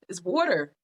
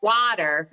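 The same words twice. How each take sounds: First: "water" with a rounded "aw" vowel; own water pronunciation. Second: "Water" with an open "ah" vowel; imitating a friend's "Water", first vowel unrounded; friend's water pronunciation. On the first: Retold or imitated. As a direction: correct it to "waw-ter" in "water". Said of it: "And I'm like". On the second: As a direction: say "Water" as "wah-ter". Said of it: "She be like".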